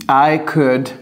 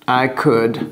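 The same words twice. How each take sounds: No difference in how they are said.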